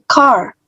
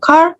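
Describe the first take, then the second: First: The vowel is stretched out long. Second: The vowel is said short. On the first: The speaker calls it right. "Jadi car-nya dipanjangkan" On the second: The speaker calls it wrong. "bukan car"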